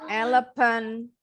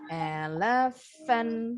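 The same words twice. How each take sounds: First: The middle consonant is a p sound. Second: The middle consonant is an f sound. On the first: The speaker calls it wrong. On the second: The speaker calls it right.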